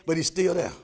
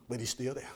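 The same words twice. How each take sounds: First: Said in the usual way. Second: Quiet reassurance; dropped soft. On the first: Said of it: "Now, sometimes he's silent". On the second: Shown as a demonstration. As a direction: still dropped to a hush. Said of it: "Let me tell you".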